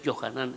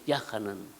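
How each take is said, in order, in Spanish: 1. El nombre empieza con el sonido Jo. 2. El nombre empieza con el sonido Ya. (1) "no es Johanán" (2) "es Yahanán"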